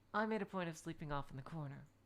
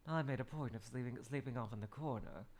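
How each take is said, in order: First: It is said in an ordinary natural voice. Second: It is said in a put-on character voice.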